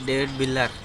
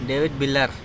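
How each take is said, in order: No difference in how they are said.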